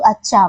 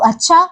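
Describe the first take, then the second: First: Falling "oh, I see" tone; just finding out. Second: Higher, rising challenge; threatening. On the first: Teacher demonstrates learning something she didn't know, realizing. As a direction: say it as news just sinking in. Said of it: "मुझे वो ज्ञान नहीं था और मुझे अभी पता चला". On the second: Teacher shows a word turned into a threat, menacing. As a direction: raise it into a "oh, is that so?" threat. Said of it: "मतलब एक धमकी वाला". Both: Shown as a demonstration.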